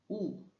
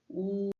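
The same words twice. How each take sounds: First: The pitch falls sharply from high. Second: The pitch stays high and level.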